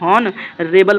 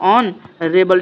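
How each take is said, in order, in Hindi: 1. शब्द की शुरुआत एक साफ़ सुनाई देने वाली 'h' ध्वनि से होती है। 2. शब्द सीधे एक स्वर ध्वनि से शुरू होता है। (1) "जो लोग हॉनरेबल पढ़ते हैं वो बिल्कुल गलत हैं" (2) "पढ़ने वाले सही कौन है, ऑनरेबल"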